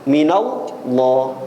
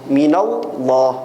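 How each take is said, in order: The two takes are said the same way.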